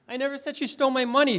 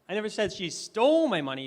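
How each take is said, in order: First: The stress is on the word money. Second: The stress is on the word stole.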